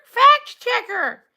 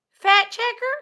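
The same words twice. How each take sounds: First: "Fact" slowly, with a crisp k and t; slow, falling correction on "Fact checker"; corrective enunciation. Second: Said in the usual way. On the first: Pretend. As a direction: stretch "Fact checker" to mark the consonants. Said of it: "No, not fat checker".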